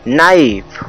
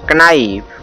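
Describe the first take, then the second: First: The word starts with an n sound. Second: The word starts with a k sound. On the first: The speaker calls it right. "इसे नाइफ पढ़ेंगे" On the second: The speaker calls it wrong. "न कि इसे पढ़ेंगे कनाइफ"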